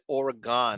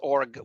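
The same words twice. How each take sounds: First: The last syllable is full, sounding like 'gone'. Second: The last syllable is reduced, sounding like 'gin'. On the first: This is how people in New York say it. The speaker calls it wrong. "We in New York we pronounced it Oregon" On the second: This is how people from the state say it. The speaker calls it right. "It's pronounced gin. It's Oregon"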